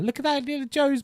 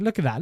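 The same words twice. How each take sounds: First: "that" squeaked much higher in delight; amused high-pitched repeat; amused squeal. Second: Said in the usual way. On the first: Real, not acted. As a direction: squeal "Look at that" in giddy disbelief. Amused repeat at old video.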